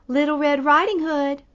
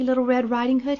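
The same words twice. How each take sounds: First: Put-on higher and louder, faking a little girl; wolf pretending to be the girl; sly wolf faking a sweet girl's voice. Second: Said in the usual way. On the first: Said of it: "in a very high pretend voice".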